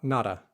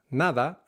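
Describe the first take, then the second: First: Nada with an English hard t-like d. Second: Nada with a soft d like "th"; nada, Spanish soft d. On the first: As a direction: nada the American way. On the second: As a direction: say Nada gently on the d. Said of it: "Nada, not nada". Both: Shown as a demonstration.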